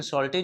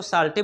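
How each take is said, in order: First: सॉल्टी with a rounded "aw" vowel; rounded o sound in सॉल्टी; proper pronunciation. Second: साल्टी with a long "aa" vowel; alternative pronunciation. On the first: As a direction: say सॉल्टी as "sawl-tee". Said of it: "इसका pronunciation हो रहा होता है". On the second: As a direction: say साल्टी as "saal-tee". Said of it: "ऐसे हम लोग साल्टी बोल सकते हैं". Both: Shown as a demonstration.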